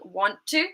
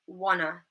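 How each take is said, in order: First: Both words are said fully and separately. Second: The words blend together, ending in a schwa. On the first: "instead of saying want to" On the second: "we might say wanna"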